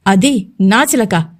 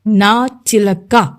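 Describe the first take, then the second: First: Slow, hard stress on అది, every word of అది నా చిలక weighted; pressing each word. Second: Very slow, hard stress on నా in నా చిలక; pressing each word. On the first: Pandu warns Tataku off his woman, stressing అది. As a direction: lean hard on అది, slowly. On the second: Pandu repeats to Tataku, stressing నా slowly. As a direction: drag out నా చిలక, hitting నా. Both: Acted. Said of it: "గట్టిగా ఒత్తి పలుకుతున్నాడు".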